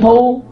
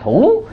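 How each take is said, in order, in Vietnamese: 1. Âm tiết có cao độ bằng, đều. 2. Cao độ lên, có chỗ đứt giọng. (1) "không có dấu gì á, là bằng" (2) "dấu ngã"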